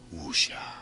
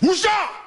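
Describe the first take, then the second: First: It is said softly and gently. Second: It is said loudly and forcefully. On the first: It feels like calm serenity. "Say it gently" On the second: It conveys power. "Say it with force"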